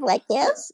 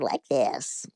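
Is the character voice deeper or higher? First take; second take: higher; deeper. First: The voice is pitched higher, in its usual register. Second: The voice is pitched lower and sounds deeper. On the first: This is the character's original younger voice. "instead of like this" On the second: This is the character's older grown-up voice. "they had me do my voice deeper"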